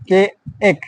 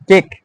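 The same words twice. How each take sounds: First: কে এক said as two separate beats; long-vowel sounding out. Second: Said in the usual way. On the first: Shown as a demonstration. Teacher showing class the long sound, sounding out. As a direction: split the word into কে, then এক, vowel held long. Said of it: "long এক". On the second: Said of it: "উচ্চারণ করো তোমরা সবাই".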